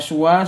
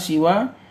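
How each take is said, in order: First: The first syllable has a u vowel. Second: The first syllable has an i vowel. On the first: "suwa seperti huda" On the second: "siwa seperti ridho"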